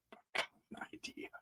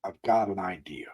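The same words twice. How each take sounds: First: Barely audible, quick whisper; fading, rushed secret whisper; faint whisper. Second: Soft conspiratorial whisper; hushed, scheming whisper. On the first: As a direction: breathe it out almost silently. Repeats idea fainter, quicker. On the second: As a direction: lean in and whisper the plan. Sudden idea whispered to viewers. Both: Acted.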